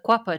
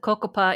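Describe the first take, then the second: First: The name begins with a 'kwa' sound. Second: The name begins with a 'ko' sound. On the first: This is how the people themselves say it. The speaker calls it right. "This is how they pronounce it" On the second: This is the common outside pronunciation. The speaker calls it wrong. "I think that most of us probably pronounce it the Cocopa Indian tribe"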